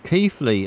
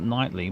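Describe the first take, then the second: First: The name starts with a K sound. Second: The name starts with an N sound. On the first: The speaker calls it right. "that makes more sense" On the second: The speaker calls it wrong. "I'd guess at nightly, but I don't know"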